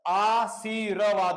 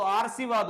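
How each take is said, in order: First: आशीर्वाद said slowly with the r before व; slow, careful आशीर्वाद as the right form; teacher models आशीर्वाद slowly and correctly; correct pronunciation. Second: आरसीवाद with the r moved early, as a mistake; teacher shows the mistaken आरसीवाद; wrong pronunciation. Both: Shown as a demonstration. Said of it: "ये यहाँ पर गलत हो जाता है".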